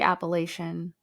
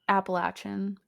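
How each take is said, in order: First: It is the pronunciation used by non-locals. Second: It is the pronunciation used by locals. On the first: The speaker is not from the area. The speaker calls it wrong. "people not from the area call it this. So we say Appalachian" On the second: The speaker is from the area. The speaker calls it right. "Appalachian, I think"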